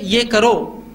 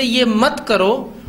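First: Slow, deliberate "ये" offering the alternative; stress on ये. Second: Firm prohibition leaning on "मत"; slow, deliberate "मत" as the forbidding word; stress on मत. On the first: Showing parents the alternative answer, stress on "ये". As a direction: lean on "ये", pointing to what is allowed. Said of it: "उसी वक्त जवाब दीजिए". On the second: Showing parents the forbidding phrase, stress on "मत". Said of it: "आप ये बोलते ये मत करो". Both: Shown as a demonstration.

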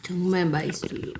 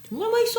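First: Said in the usual way. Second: Much higher, cutesy delight. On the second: Real, not acted.

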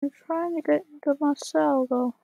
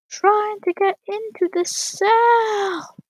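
First: Said in the usual way. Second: High, slow, drawn-out shout; frustrated shout. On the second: Real, not acted. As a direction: stretch it out and yell in frustration. Stuck outside cell, frustration boils over.

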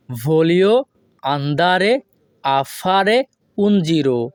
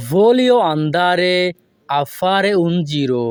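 First: "Voglio" "andare" "a fare" "un giro" said in separate chunks with pauses; broken word by word. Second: Very slow, careful Italian; slow model phrase. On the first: Teacher breaking the phrase into chunks with pauses. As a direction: chop the phrase into pieces with pauses. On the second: Teacher modelling the Italian slowly for students. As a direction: draw the sentence out for learners. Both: Shown as a demonstration. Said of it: "এই বাক্যটি যদি আমরা ভেঙে ভেঙে বলি".

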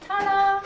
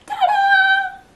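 First: Said in the usual way. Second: High, loud ta-da cry; excited ta-da. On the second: Real, not acted. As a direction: shout it out like a big reveal. Jelly reveal, said twice.

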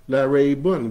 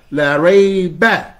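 First: Said in the usual way. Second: La rayba slow, high, loud, rayba rising; emphatic negation. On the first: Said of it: "like a soft no doubt". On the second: Shown as a demonstration. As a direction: stretch out la rayba with weight. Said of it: "He puts a fatha".

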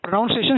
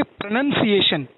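First: "प्रोनाउंसिएशन" with "nau" like noun, the version he rejects; the mispronounced form of pronunciation; wrong pronunciation. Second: "प्रोनंसिएशन" with a short "nun", pro-nun-ciation, slightly slow; teacher models the correct pro-nun-ciation carefully; correct pronunciation. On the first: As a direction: say "प्रोनाउंसिएशन" as pro-NOUN-ciation, the common mistake. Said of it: "शब्द ही नहीं है". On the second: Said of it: "उसको बोलते हैं". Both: Shown as a demonstration.

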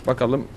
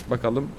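The two takes are said the same way.

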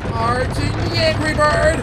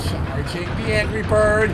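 First: Higher, drawn-out suspenseful build; rising charge-up call. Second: Charging announcement. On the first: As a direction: wind it up higher and higher. Repeats charge with more tension. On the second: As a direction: stretch it as the shot winds up. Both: Pretend.

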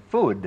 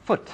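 First: "food" long, ending in voiced D; long final D. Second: "foot" cut short on a crisp T; short final T. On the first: Teacher contrasts food with foot, long final D. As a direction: draw out "food" to a D. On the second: Teacher contrasts foot with food, short final T. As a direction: stop "foot" quickly with a T. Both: Shown as a demonstration. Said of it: "ต่างกัน".

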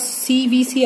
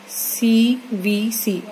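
First: Said in the usual way. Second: "CVC" slow, one letter at a time; "CVC" said slowly, letters set apart for learners; spelled out slowly. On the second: Shown as a demonstration. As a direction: draw out each letter of "CVC". Teacher repeats the letters for students.

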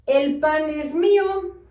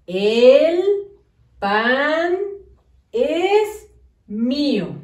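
First: "El pan es mío" read as one run-on chunk with no gaps; run together. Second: "El", "pan", "es mío" said slowly with a clear pause after each word; words spaced apart. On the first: Teacher showing pupils the wrong, run-together reading. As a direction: slur "El pan es mío" together as if written without spaces. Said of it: "No debe de decir así. Todo junto, no". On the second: Teacher to pupils, each word held apart slowly. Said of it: "Debe de decir". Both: Shown as a demonstration.

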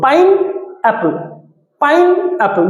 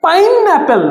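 First: "pineapple" as pine ... Apple with a clear pause; two separated beats in "pineapple"; split in two. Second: Said in the usual way. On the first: Shown as a demonstration. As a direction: break "pineapple" after pine. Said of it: "দুটো syllable এখানে". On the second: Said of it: "আমি যদি বলি".

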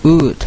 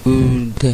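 First: "would" as one short blended ood; blended sounds. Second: "would" as a long oo, then a separate duh; segmented sounds. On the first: Teacher blending sounds for learners, quick single ood. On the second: Teacher sounding out rude for learners, segmented oo-d. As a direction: stretch "would" into two parts, oo and d. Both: Shown as a demonstration. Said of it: "ตัว D คือเสียง".

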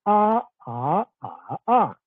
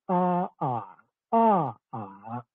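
First: "a, a, a, a" in the four Standard Mandarin tones; four separate a's: level, rising, dipping, falling. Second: "a, a, a, a" in the four Northern Guangxi Mandarin tones; four separate a's, each in its Guangxi Mandarin tone. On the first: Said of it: "The four tones are". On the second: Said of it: "Whereas in Northern Guangxi Mandarin". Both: Shown as a demonstration.

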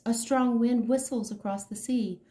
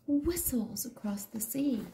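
First: Said in the usual way. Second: Soft unvoiced whisper; whispered echo. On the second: A narrator's reading. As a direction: whisper it like the wind.

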